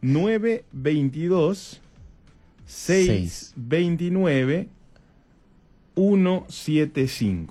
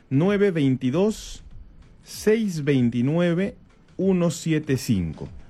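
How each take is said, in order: First: It is said more slowly. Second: It is said at normal speed.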